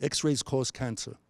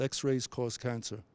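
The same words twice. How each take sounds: First: Said in the usual way. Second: Quietly leaning on "X-rays", slowly; slow, soft, stress on X-rays. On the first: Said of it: "Okay, it's pretty neutral". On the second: Shown as a demonstration. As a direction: say "X-rays" with weight, the rest falling away. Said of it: "Or I could say".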